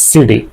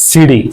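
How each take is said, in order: Both takes have the same delivery.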